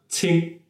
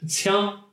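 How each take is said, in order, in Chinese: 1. 这个音节的元音是闭口的i。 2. 这个音节的元音是开口的a。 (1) "文读是什么呢？" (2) "它在本地会有一个白读"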